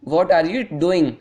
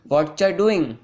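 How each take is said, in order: First: Every word is said fully and separately. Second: The words are blended into shortened slang forms.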